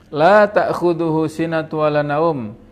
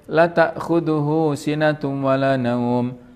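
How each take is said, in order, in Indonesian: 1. Vokal pada 'la' pertama panjang. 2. Vokal pada 'la' pertama pendek. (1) "Kalau yang ditulis di mushaf" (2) "kalau kita baca pendek"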